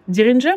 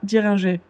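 First: The name is said with English pronunciation. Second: The name is said with French pronunciation. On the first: "Est-ce qu'on le dit en anglais" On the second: "ou en français?"

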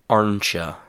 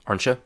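First: It is said slowly with clear sounds. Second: It is said quickly with a relaxed mouth. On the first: "the reduced form, but in a slower, cleaner, easier to understand way" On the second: "the reduced form in a very natural way, with my mouth very relaxed"

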